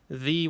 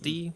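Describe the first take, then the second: First: The word starts with a soft th sound. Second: The word starts with a hard d sound. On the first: "I couldn't pronounce th" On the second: "the was d"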